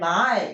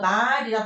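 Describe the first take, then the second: First: The word starts low and rises, drawn out. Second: The word is said on a level pitch. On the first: This is how the word sounded in the past. "옛날에 말 이렇게 읽었어야 됐던 소리" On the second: This is how the word sounds today. "지금 우리가 말이라 발음하는 그 소리는"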